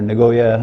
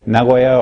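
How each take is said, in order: First: The name is said the way Americans say it. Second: The name is said in a non-American way.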